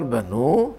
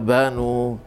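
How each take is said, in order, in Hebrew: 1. ההטעמה היא על ההברה האחרונה. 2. ההטעמה היא על ההברה הראשונה. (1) "ואם תאמר בנו, השורש הוא בית נון ה" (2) "אם תאמר בנו, זה מנחי עין וב, כאילו השורש הוא בון"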